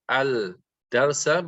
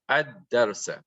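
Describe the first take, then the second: First: An L sound is heard before the D. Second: The L merges into a doubled D. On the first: The speaker calls it wrong. "we do not say al darsa" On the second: The speaker calls it right. "but we say ad darsa"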